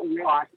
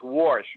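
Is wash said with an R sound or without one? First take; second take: without R; with R. First: It is said without an R sound. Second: It is said with an added R sound.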